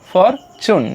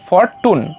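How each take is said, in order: First: The second syllable starts with a ch sound. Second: The second syllable starts with a t sound. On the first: The speaker calls it right. "তাহলে for চুন" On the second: The speaker calls it wrong. "Not for টুন"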